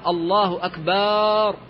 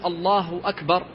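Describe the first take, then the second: First: The vowel after the b is drawn out long. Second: The vowel after the b is short. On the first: It turns the word into a plural meaning drums. The speaker calls it wrong. "كما لو مد الباء وأشبع حركتها" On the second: It means God is greatest. The speaker calls it right. "فبدلا من أن يقول"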